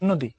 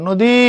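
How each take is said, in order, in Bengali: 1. শেষ স্বরটি হ্রস্ব রাখা হয়। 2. শেষ স্বরটি দীর্ঘ করে টানা হয়। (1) "না নদী" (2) "পড়ার সময় কি পড়ো নদী"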